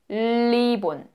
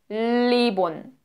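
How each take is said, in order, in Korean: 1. 첫 자음은 중국식으로 발음해요. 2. 첫 자음은 중국식으로 발음해요.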